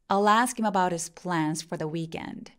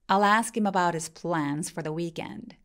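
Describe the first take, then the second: The two takes are said the same way.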